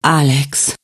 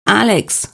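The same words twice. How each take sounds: First: Sighed. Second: Name called high and sharp. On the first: Svenja sighs her husband's name in the hospital bed. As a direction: breathe his name out like a sigh. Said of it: "seufzte sie". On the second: Wolfgang calls to Alex from the dream doorway. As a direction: call him from the doorway. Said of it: "rief Wolfgang". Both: Acted.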